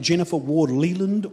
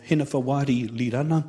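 First: The name is said with English pronunciation. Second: The name is said with Māori pronunciation.

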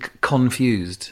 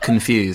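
First: The stress is on the first syllable. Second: The stress is on the second syllable. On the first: "I hit the word, I hit con" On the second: "and not confused"

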